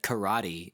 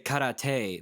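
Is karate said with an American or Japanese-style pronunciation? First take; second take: American; Japanese-style. First: Karate is said with a flat American pronunciation. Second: Karate is said with an exaggerated Japanese-style pronunciation. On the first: It sounds too Americanized. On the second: It sounds like an over-the-top imitation. "then I feel like Jeremy Jam"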